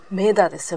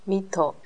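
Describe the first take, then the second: First: It begins with 'me' and ends with 'da'. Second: It begins with 'mi' and ends with 'teo'. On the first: This is the form older men use. "韓国人のアゾシたちが使う。" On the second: This is the standard form. "ミートというふうに言います。"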